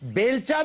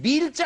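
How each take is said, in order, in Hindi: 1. पहला स्वर 'e' ध्वनि है। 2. पहला स्वर 'ee' ध्वनि है। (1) "ये बेलचा भी गलत है" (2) "ये बीलचा है"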